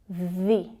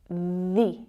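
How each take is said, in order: First: The vowel is a long, tense ee sound. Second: The same.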